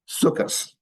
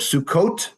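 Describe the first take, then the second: First: The word ends with an S sound. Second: The word ends with a hard T sound. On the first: This is the Yiddish pronunciation. "becomes Sukkos" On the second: This is the Hebrew pronunciation. "Or Sukkot"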